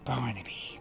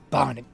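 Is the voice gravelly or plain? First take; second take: plain; gravelly. First: It is said in a smoother, less gravelly voice. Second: It is said in a deep, gravelly voice.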